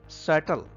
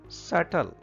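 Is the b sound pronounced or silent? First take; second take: silent; silent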